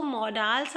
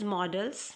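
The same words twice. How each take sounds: First: "modals" with a long open "-dals"; long second vowel. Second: "models" with a short weak "-dls"; reduced second vowel. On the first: Teacher showing class one accepted form, "modals" with full "-dals". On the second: Teacher showing class the other form, "models" with weak second vowel. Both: Shown as a demonstration. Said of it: "also pronounced as models".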